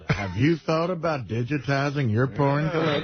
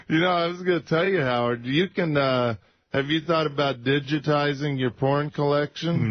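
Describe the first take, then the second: First: Imitating a salesy pitch; lightly mocking sales voice; mock infomercial voice. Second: Salesy pitch voice; smooth sales pitch; infomercial voice. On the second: Real, not acted. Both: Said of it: "You just sounded like an infomercial".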